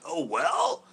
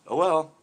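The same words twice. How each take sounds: First: Higher, rising, questioning mimicry; incredulous echo. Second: Short, falling, dismissive delivery; offhand resignation. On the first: Pro echoing angler's shrug, incredulous. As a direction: throw it back in mock disbelief. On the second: Retold or imitated. Angler to pro after line broke, offhand resignation. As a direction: shrug it off, re-enacting your reaction. His own casual reaction, contrasted with pro's.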